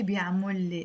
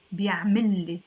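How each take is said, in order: First: بيعمل لي said as bya3-mol-le; unmerged بيعمل لي with -mol; rejected form. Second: بيعمل لي said as bya3-mil-le, louder; change بيعمل to -mil before لي; one joined word, bya3-millé; correct joined form. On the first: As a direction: keep the o in بيعمل before لي. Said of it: "No, we won't say". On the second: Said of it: "That's how you will pronounce it". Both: Shown as a demonstration.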